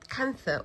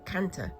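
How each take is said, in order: First: The middle consonant is a th sound. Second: The middle consonant is a plain t sound.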